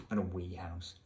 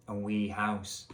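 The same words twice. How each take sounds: First: Said in the usual way. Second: Wee house in a Scottish accent; lightly put-on Scottish accent on "wee house". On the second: Shown as a demonstration. Reader voicing Elvis's wee house, Scottish accent. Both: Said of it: "I think Elvis has a Scottish accent".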